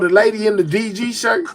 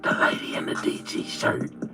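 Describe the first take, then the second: First: The phrase is spoken in a full voice. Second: The phrase is whispered very quietly. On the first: It is announced openly. "I'm going to say it out loud" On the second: It is a secret shared with insiders. "Whisper it to you"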